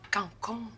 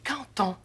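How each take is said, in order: First: The words are joined without a T sound. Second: The words are joined with a T sound. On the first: The speaker calls it wrong. "On dit pas cancon" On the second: The speaker calls it right. "on dit canton. Le D en fin de mot se prononce comme un T devant un mot qui commence par une voyelle"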